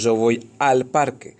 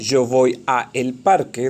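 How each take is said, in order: First: The words 'a' and 'el' merge into 'al'. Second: The words 'a' and 'el' are said separately. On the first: The speaker calls it right. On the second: The speaker calls it wrong. "En lugar de decir"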